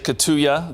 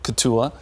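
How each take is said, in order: First: The name is said with Spanish-style sounds. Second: The name is said with English-style sounds. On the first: The speaker calls it wrong. "some people say Cotulla ... maybe a Spanish pronunciation there" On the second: The speaker calls it right. "but Cotulla"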